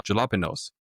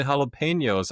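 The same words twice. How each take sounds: First: Jalapenos with an English J; naive mispronunciation. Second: Jalapenos with the J as an H; correct pronunciation. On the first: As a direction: say "jalapenos" with J as in jar. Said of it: "How is a J from the jalapenos". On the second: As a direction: say "jalapenos" the Spanish way, starting with H. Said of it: "pronounced like an H". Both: Retold or imitated.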